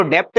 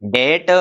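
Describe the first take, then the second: First: डेप्ट with the b sounded, dept; deliberately wrong डेप्ट with an audible b; wrong pronunciation. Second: डेट said as det, the b silent; correct pronunciation. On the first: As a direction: say डेप्ट with a b before the t. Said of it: "डेप्ट नहीं बोलेंगे". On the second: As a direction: say डेट with no b at all. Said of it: "इसको बोलेंगे डेट". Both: Shown as a demonstration.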